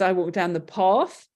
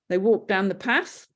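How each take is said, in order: First: A southern English accent with a long 'ar' vowel. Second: A northern English accent with a short 'a' vowel.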